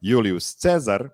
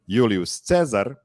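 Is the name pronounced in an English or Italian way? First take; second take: Italian; Italian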